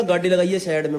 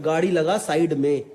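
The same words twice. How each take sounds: First: Imitated blunt Haryanvi command; strong Haryanvi accent. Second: Said in the usual way. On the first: Retelling a stranger's roadside order, in Haryanvi accent. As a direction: put the words in rustic Haryanvi. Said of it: "एकदम खड़ी हरियाणी में बोला". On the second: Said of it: "मतलब".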